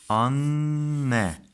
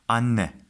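First: The word is said slowly, syllable by syllable. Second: The word is said quickly as one unit.

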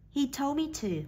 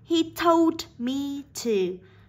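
First: The final sound of told is dropped. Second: The final sound of told is fully pronounced. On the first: "bây giờ chúng ta sẽ phát âm là" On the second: "Bình thường chúng ta sẽ đọc là"

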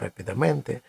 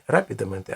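First: The stress is on a later syllable. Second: The stress is on the first syllable. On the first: This is a common nonstandard form. The speaker calls it wrong. "а рапідаменте ... Але це відхилення від норми" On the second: This is the standard form. The speaker calls it right. "часто люди говорять не"

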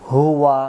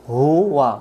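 Both takes have the same delivery.

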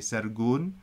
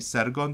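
First: The second syllable has a 'u' vowel. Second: The second syllable has an 'o' vowel. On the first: The speaker calls it wrong. "they don't want to say sergun" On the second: The speaker calls it right. "they want to say sergon"

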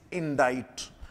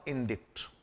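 First: It is said without a k sound. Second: It is said with a k sound. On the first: The speaker calls it right. "its correct pronunciation is indict" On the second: The speaker calls it wrong. "not indict"

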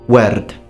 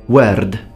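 First: The R sound is rolled or tapped. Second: The R sound is rolled or tapped.

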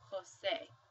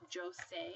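First: The name begins with an 'h' sound. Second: The name begins with a 'j' sound. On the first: The speaker calls it right. "you actually say Jose, because J sounds like an H" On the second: The speaker calls it wrong. "You don't pronounce it as Jose"

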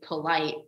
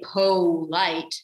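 First: The stress falls on the second syllable. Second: The stress falls on the first syllable. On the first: The speaker calls it right. "I say polite" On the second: The speaker calls it wrong. "I don't say polite"

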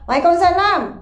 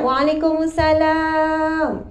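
First: It sounds angry and curt. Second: It sounds cheerful and happy.

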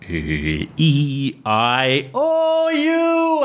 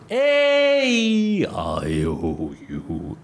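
First: The voice grows louder and thinner across the vowels. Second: The voice grows softer and deeper across the vowels.

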